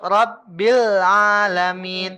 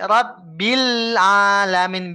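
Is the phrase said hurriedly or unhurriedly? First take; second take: hurriedly; unhurriedly. First: The phrase is said hurriedly without holding 'bil'. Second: The phrase is said unhurriedly, holding 'bil'. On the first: The speaker calls it wrong. "nggak usah terburu-buru" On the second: The speaker calls it right. "bil bilnya tekan dulu"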